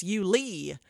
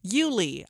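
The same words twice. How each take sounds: First: Yulee with the weight moved onto LEE; alternative pronunciation. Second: Said in the usual way. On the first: Shown as a demonstration. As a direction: try "Yulee" as you-LEE, stressing the end. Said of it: "Maybe it's Yulee". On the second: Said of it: "I think I'm pronouncing it correctly".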